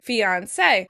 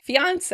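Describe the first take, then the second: First: The stress is on the last syllable. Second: The stress is on the second syllable. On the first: "we tend to stress the last syllable" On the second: "they tend to stress the second syllable"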